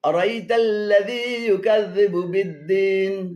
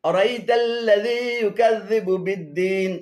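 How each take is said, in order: No difference in how they are said.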